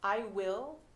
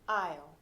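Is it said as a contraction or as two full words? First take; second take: two words; contraction. First: Both words are said fully and separately. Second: The words merge into one short syllable.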